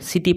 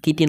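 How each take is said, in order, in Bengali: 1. শব্দটি s ধ্বনি দিয়ে শুরু হয়। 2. শব্দটি k ধ্বনি দিয়ে শুরু হয়। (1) "চিটি পঢ়িম" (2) "কিটি নপঢ়োঁ"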